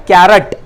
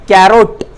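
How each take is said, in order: First: कैरट with a short reduced second vowel, kai-rat; carrot said as kairat. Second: कैरोट with a long o in the second syllable, kai-rot; carrot said as kairot. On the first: Teacher shows pupils the other right way to say कैरट. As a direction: say कैरट quickly as kair-ut. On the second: Teacher shows pupils one right way to say कैरोट. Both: Shown as a demonstration. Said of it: "दोनों तलफ़ुज़ सही है".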